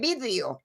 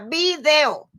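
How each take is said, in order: First: The stress is on the first syllable. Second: The stress is on the second syllable. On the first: This is how people in Spain say it. The speaker calls it wrong. "dicen los españoles vídeo" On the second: This is how the word is said where the speaker lives. The speaker calls it right. "Se dice video, así como suena"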